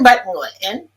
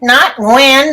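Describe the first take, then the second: First: The word is said with a glottal stop. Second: The word is said without a glottal stop. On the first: The speaker calls it right. "So there's a glottal stop in there, plus there's tone there" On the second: The speaker calls it wrong.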